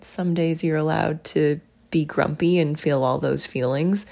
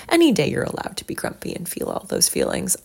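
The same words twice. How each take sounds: First: Said in the usual way. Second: "Any" punched high and loud, then a quick run; stress on ANY. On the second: Real, not acted. Host corrects herself for listeners, emphatic high stress on "Any". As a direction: hit "Any" hard and rattle off the rest.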